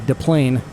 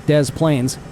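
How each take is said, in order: First: The name has a French pronunciation. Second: The name has a local American pronunciation. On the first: "In French, you would say Des Plaines" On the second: "pronounced around here as Des Plaines"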